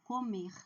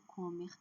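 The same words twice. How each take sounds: First: Comer with a strong, long -MER; stress on last syllable. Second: Comer stressed on CO, with weak -mer; wrong stress. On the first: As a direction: lean on the final syllable of comer. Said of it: "a última sílaba é forte". (comer com a última sílaba forte) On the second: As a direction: misstress comer on its first syllable. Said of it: "não é comer". (comer com a primeira sílaba forte) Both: Shown as a demonstration.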